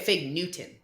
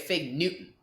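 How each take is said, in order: First: The t in Newton is fully pronounced. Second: The t in Newton is a glottal stop. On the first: This is not how the speaker says it. "I wouldn't say a Fig Newton" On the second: This is how the speaker says it. "I'd say a Fig Newton"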